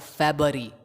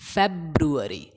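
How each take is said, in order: First: The middle 'ru' syllable is dropped. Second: The middle 'ru' syllable is clearly pronounced. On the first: The speaker calls it wrong. "It's not फरवरी या फेबरी" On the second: The speaker calls it right. "It's फेब्रुअरी"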